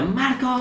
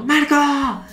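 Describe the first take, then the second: First: Dramatic yell. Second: High, drawn-out cartoon call; dramatic yell. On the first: Retold or imitated. Star calls Marco dramatically, high stagey yell. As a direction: pitch the name way up like a cartoon. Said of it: "Así todo dramático". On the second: Star calls Marco across the crowd, high dramatic yell. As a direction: yell his name across the school. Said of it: "va por Marco y grita".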